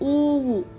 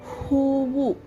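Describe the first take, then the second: First: The word begins without an h sound. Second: The word begins with an h sound. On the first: The speaker calls it wrong. "there is no word called hu, oovu. It should be hoovu" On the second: The speaker calls it right. "ಹೂವು means flower"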